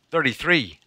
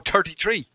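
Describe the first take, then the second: First: Said in the usual way. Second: Put-on "thirty-three" in a southern Irish accent, th as t; exaggerated southern Irish "thirty-three"; mock southern Irish accent. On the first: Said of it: "You're not saying it right". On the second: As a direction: say "thirty-three" as "turty-tree". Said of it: "I don't talk like that".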